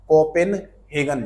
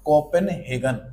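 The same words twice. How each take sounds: First: Copenhagen spelled out slowly; slow drawn out. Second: Said in the usual way. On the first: Shown as a demonstration. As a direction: stretch every syllable of Copenhagen. (Copenhagen धीरे धीरे) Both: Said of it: "slow repeat".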